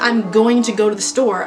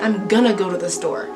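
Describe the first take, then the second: First: Going to is said in full. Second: Going to is reduced to gonna. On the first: This sounds overly formal in speech. The speaker calls it wrong. "I would really never say that" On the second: This is the normal everyday form. The speaker calls it right. "I would say ... That's standard"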